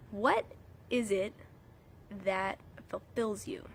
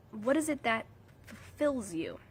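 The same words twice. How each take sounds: First: Whispering. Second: Said in the usual way. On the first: Acted. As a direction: whisper it slowly to draw them in. Reflective question to viewers.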